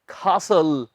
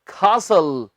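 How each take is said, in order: First: The t sound is left out entirely. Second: The same.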